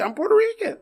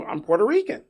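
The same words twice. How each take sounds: First: High, emphatic repeat of "I'm Puerto Rican"; insist, voice jumping up high; exasperated insistence. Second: Said in the usual way. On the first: Retold or imitated. Third insistent repeat, much higher.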